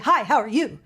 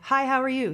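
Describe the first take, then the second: First: Each word is hit hard and punchy. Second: The words flow softly in a relaxed line. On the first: The speaker calls it wrong. "I don't say" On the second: The speaker calls it right. "I just say"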